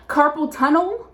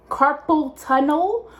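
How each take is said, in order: First: Slow questioning rise on "Carpal tunnel"; checking she said it right; unsure of the word. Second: Slower, drawn-out "Carpal tunnel" rising; doubting the word; lingering puzzled repeat; still unsure. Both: Real, not acted. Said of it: "I think that's the word".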